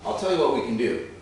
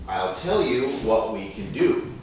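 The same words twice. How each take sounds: First: The sentence is spoken at normal speed. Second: The sentence is spoken slowly. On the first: "let's go more normal speed" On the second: "first, slowly"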